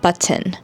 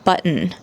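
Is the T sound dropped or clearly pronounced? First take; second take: pronounced; dropped. First: The T sound is clearly pronounced. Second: The T sound is barely pronounced. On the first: It sounds British. The speaker calls it wrong. "not button" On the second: It sounds American. The speaker calls it right. "It's button"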